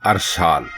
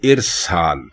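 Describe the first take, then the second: First: The word begins with an 'a' vowel. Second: The word begins with an 'i' vowel. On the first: The speaker calls it wrong. "लोग इसको बोलते और लिखते हैं" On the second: The speaker calls it right. "अलिफ के नीचे जेर डालकर"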